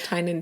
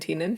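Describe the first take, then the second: First: The first vowel sounds like 'eye'. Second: The first vowel sounds like 'ee'.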